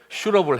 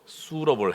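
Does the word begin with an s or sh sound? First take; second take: sh; s. First: The word begins with a sh sound. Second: The word begins with an s sound. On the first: It sounds like a helper who shoots. The speaker calls it wrong. "제가 이거 영어 발음 잘못해가지고" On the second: It means a fitting helper. The speaker calls it right. "슈러블이 아니고 수러블"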